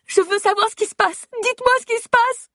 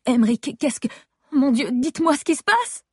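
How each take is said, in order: First: Frantic high shout. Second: Panicked pitch climb. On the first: Wife screaming at the medical team for answers, frantic and high. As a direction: scream the demand, voice cracking high. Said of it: "Je me mets à crier". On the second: Wife begging staff as her husband's alarms go off, voice rising high in panic. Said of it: "Ma voix a grimpé d'une octave". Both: Acted.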